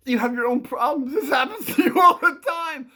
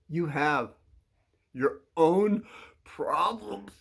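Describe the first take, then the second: First: Higher, louder, run together and breaking into laughter; cracking up. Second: Broken into separate pieces with pauses; halting emphasis. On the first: Real, not acted. Telling a kid off, cracking up. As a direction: blurt it out in one go, laughing. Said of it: "I'm just trying to keep a straight face". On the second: Acted. Telling a kid off, halting emphasis. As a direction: pause after HAVE and OWN, then PROBLEMS alone. Acted telling-off, slow first take.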